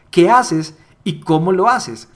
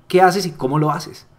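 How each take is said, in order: First: "¿Qué haces y cómo lo haces?" said slowly, each word weighted; slow it down and lean on "haces"; slow, deliberate repeat. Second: Said in the usual way. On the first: Shown as a demonstration. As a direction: drive the question home, word by word.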